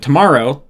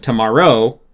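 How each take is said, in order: First: Said in the usual way. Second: Tomorrow stressed on the last syllable, to-mor-ROW; weirdly accented tomorrow, heavy final syllable; misplaced stress. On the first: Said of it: "it sounds natural". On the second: Shown as a demonstration. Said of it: "that sounds weird".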